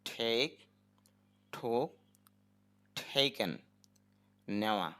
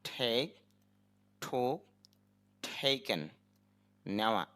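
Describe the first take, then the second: No difference in how they are said.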